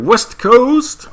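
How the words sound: It is said in a slangy rapper-like accent.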